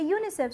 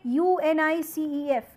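First: It is said as one whole word. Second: Each letter is said separately. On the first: The speaker calls it right. "you are pronouncing as if it is a complete word" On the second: The speaker calls it wrong. "You do not say UNICEF"

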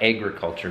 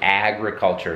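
First: The word is said in a Minnesota accent. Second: The word is said in a standard accent. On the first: "like we say in Minnesota" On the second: "like agriculture"

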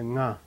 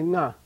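First: The syllable is said with a low pitch. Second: The syllable is said with a high pitch. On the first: The speaker calls it right. "you say na" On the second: The speaker calls it wrong. "you don't say na"

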